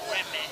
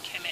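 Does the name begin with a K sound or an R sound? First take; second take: R sound; K sound. First: The name begins with an R sound. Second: The name begins with a K sound. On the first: The speaker calls it right. "Her name is Reme" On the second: The speaker calls it wrong. "I mentioned Reme's name as Keme earlier. That's uh, not the actual pronunciation"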